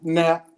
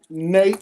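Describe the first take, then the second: First: The vowel is short, as in 'cap'. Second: The vowel is long, as in 'cape'. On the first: The speaker calls it wrong. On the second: The speaker calls it right.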